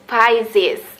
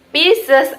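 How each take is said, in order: First: It is said with an English pronunciation. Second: It is said with a non-English pronunciation. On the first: "atau dalam bahasa Inggris" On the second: "ada yang membacanya Pisces"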